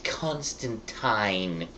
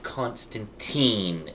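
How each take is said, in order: First: Constantine ending like "tine", rhymes with mine; pronounced con-stan-TINE. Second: Put-on Constantine ending like "teen", drawn out; pronounced con-stan-TEEN. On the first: Retold or imitated. Mimicking people correcting the movie title, Constantine said with "-tyne". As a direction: say Constantine with a long I at the end. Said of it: "it's pronounced Constantine". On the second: Mimicking people rejecting the movie's version, Constantine said with "-teen". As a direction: say Constantine with a long E at the end. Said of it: "not Constantine".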